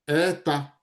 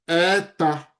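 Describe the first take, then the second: No difference in how they are said.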